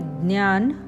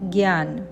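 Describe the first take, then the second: First: The word begins with a d-ny sound. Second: The word begins with a g-y sound. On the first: This is the Marathi pronunciation. "मराठीत ज्ञान" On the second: This is the Hindi pronunciation. "हिंदीत ज्ञान"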